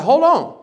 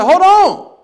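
First: Raised, higher urgent hold on; sharp alarm as the car slides; urgent call. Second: Much higher, much louder panicked cry; panicked shout. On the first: Retelling to the congregation, alarmed raised call. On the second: Retelling to the congregation, a panicked shout. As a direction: yell it as the car spins out. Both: Retold or imitated. Spinning on icy freeway.

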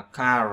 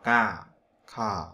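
First: "car" with the R sounded at the end; CAR with final R. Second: "ca" ending on an open vowel, no R; CAR without R. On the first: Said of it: "có một số nơi họ sẽ đọc là car". (đọc "car" có âm R ở cuối) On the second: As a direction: drop the R, say just "ca". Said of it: "còn một số nơi họ đọc ca". (đọc "ca", bỏ âm R cuối) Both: Shown as a demonstration.

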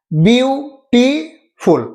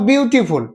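First: বিউটিফুল broken slowly into separate syllables; বিউটিফুল in drawn-out, separated chunks, bew, ti, ful; split into syllables. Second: Said in the usual way. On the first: Shown as a demonstration. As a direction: say বিউটিফুল very slowly, a gap after each syllable. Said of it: "সিলেবলে ভাগ করে উচ্চারণ করতে হচ্ছে". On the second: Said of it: "সিলেবলে ভাগ করে".

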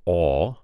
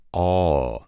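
First: Said in the usual way. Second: "aw" stretched into a two-part glide; Alabama aw diphthong. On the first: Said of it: "becomes another diphthong". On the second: Shown as a demonstration. Coach showing the changed vowel, "aw" as a diphthong. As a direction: draw out "aw" and let it slide. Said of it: "becomes another diphthong, and it becomes".

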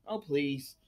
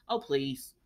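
First: "Oh, please" again in a low mock voice, unlike your own; mock the idea in a put-on tone; a put-on, low, scoffing "Oh, please". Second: Low, soft "Oh, please" with a scoff; a low, dismissive "Oh, please". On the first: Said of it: "repeated dismissal". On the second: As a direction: wave it off under your breath. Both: Real, not acted.

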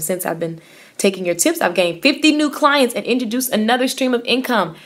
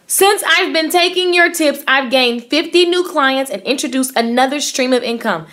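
First: Said in the usual way. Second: Emphatic reread. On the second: Shown as a demonstration. Rereading Danny's comment to the audience, higher and emphatic. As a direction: lean into it so they really hear it.

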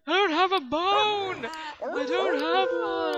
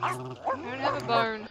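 First: Loud, high, slow plea; shouted protest. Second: Said in the usual way. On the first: Acted. Player shouting back at the game, loud and pleading. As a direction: yell it out as if cornered.

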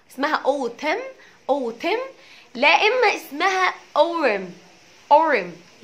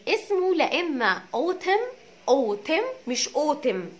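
First: Autumn with the t flapped to r, like orem; American autumn. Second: Autumn drawn out slowly, rejecting the e vowel; autumn not wrong vowel. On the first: Teacher drilling the flapped t in autumn. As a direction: flap the t in autumn to r. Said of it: "التي between two vowels". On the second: Teacher correcting the vowel of autumn. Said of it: "مش بالكسره". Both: Shown as a demonstration.

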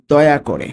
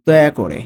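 The two takes are said the same way.

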